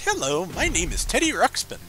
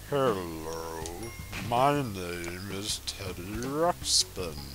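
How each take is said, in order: First: It is said in a chipper, high voice. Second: It is said in a slow, deep voice.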